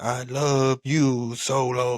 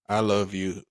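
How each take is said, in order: First: It is said in an excited, showy way. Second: It is said in a calm, flat way.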